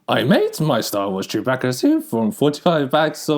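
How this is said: It is said in a put-on Yoda voice.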